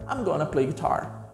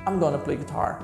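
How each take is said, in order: First: Going to is squeezed quickly into gonna. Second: Going to is squeezed quickly into gonna.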